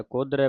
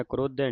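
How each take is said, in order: First: ਕੋਧਰੇ with the r after the dh; ਕੋਧਰੇ said as kodh-rai; correct pronunciation. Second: ਕਰੋਧੇ with the r moved to the first syllable; ਕਰੋਧੇ, r straight after the k; mistaken pronunciation. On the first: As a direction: say ਕੋਧਰੇ, r in the last syllable, open -ai ending. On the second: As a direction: say ਕਰੋਧੇ as kro-dhe. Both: Shown as a demonstration. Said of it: "ਕਰੋਧੇ ਨਹੀਂ ਕਹਿ ਦੇਣਾ".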